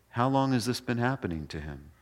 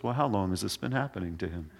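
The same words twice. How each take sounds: First: Soft, unhurried doctor-like question; calm question. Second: Soft, quick, unbothered doctor's question; calm question. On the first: Jesus calmly asks the father how long, calm and soft. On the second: Jesus calmly asks the father how long, soft and calm. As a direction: ask it like a doctor who has seen it all. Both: Retold or imitated. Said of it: "Just really calm".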